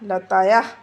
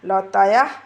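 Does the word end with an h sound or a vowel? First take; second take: h sound; h sound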